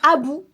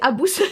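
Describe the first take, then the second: First: The word ends on a vowel, without s. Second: The word ends with an audible s sound. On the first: The speaker calls it wrong. "que je prononce toujours mal, et je dis Abou, comme le singe dans Aladdin" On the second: The speaker calls it right. "Non, c'est Abous"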